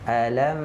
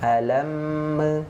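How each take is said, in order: First: The final m is held without any bounce. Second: The final m is released with an extra bounce. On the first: The speaker calls it right. "harusnya kan ditahan dulu baru sebutkan ke huruf selanjutnya" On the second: The speaker calls it wrong. "dia terpantul itu kan karena dia lepas ya"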